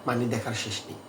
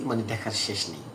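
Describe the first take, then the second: The two takes are said the same way.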